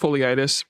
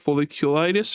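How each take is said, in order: First: A middle syllable of the word is dropped. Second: Every syllable of the word is pronounced. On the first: The speaker calls it wrong. "I keep pronouncing it as foliitis because my mouth doesn't want to work" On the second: The speaker calls it right. "but it's like folliculitis"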